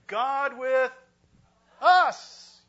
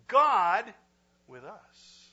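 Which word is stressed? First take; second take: us; God. First: The word us carries the stress. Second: The word God carries the stress.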